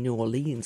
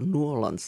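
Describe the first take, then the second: First: The name is said in the speaker's usual way. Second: The name is said the way locals say it.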